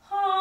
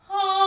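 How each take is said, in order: First: The voice sounds cloudy and diffused. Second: The voice sounds focused and powerful.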